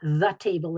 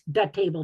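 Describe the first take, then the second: First: The word 'the' begins with a th sound. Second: The word 'the' begins with a d sound. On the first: "It's not the table and the chair" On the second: "almost always celebrate the D"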